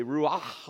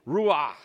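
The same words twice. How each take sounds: First: Said in the usual way. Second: Ruach with a guttural German ch, said louder; German-accented Ruach. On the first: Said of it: "I'd be able to say". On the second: Shown as a demonstration. Preacher joking about his seminary Hebrew, guttural Ruach. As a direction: rasp the ch of Ruach from the throat like a German. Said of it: "the German accent".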